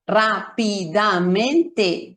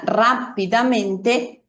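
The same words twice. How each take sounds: First: "rápidamente" very slowly, every syllable equally long. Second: Said in the usual way. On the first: Shown as a demonstration. Teacher showing learners equal syllable length, "rápidamente" syllable by syllable. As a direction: break "rápidamente" into even, fully sounded syllables: rá-pi-da-men-te. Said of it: "y tienen una duración similar". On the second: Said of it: "todas las sílabas las escuchamos perfectamente".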